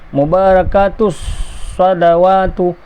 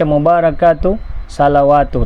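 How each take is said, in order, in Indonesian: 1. Bunyi s ditahan, dibaca rangkap. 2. Bunyi s pendek dan tunggal. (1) "Mesti ada" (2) "Tak boleh baca mubarakatu salawatu"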